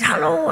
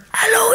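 First: Said in the usual way. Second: A strained, much higher broken-voiced hello; croaky lost voice. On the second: Storyteller with destroyed voice greets her, strained rasp. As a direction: force the hello out of a ruined throat. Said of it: "in that voice".

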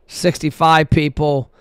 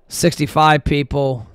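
No difference in how they are said.

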